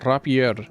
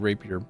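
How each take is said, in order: First: The word gets an unusual, playful pronunciation. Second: The word gets its ordinary, standard pronunciation. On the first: The speaker mispronounces it on purpose. The speaker calls it wrong. "I also say rapier" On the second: This is how it is supposed to be said. The speaker calls it right. "how it is that you're supposed to say rapier"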